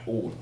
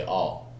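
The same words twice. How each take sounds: First: "all" with a rounded British aw; British vowel. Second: "all" with an open American ah; American vowel. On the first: Actor showing how he says it, "all" with British vowel. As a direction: say "all" the London way, lips rounded. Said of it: "me saying". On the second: Actor showing how Americans say it, "all" with open vowel. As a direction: say "all" the American way, jaw dropped. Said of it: "you guys will say". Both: Shown as a demonstration.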